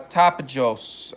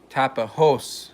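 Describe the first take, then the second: First: The J is said as an English J. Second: The J is said as an H. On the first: The speaker calls it wrong. "I'm probably not pronouncing it properly" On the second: The speaker calls it right. "Say the J is H. Is that better"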